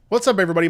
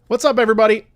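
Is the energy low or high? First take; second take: low; high. First: It is said with low energy. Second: It is said with higher energy.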